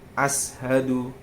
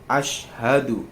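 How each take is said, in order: First: The consonant before 'hadu' is an s sound. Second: The consonant before 'hadu' is an sh sound. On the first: The speaker calls it wrong. "Dia bukan ashadu" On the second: The speaker calls it right. "Asyhadu ini dia menggunakan huruf shin"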